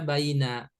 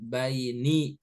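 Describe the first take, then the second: First: The word ends in an a vowel. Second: The word ends in an i vowel. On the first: The speaker calls it wrong. "Gak boleh dibaca baina" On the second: The speaker calls it right. "harokat terakhirnya kasroh"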